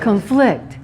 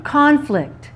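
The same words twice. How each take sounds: First: "Conflict" stressed on the second syllable; "Conflict" as a verb, weak first vowel. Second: "Conflict" stressed on the first syllable; "Conflict" as a noun, front-stressed. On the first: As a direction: say "Conflict" as cun-FLICT. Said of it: "What's the verb?". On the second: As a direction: say "Conflict" as CON-flict, first syllable high. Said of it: "Here's the noun". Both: Shown as a demonstration.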